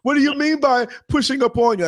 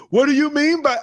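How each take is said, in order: First: Mock-innocent question, higher than his own voice; passenger, acting innocent. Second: Passenger voice. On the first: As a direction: play dumb, like a pushy rider faking surprise. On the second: Retold or imitated. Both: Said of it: "this is how I said it without saying it".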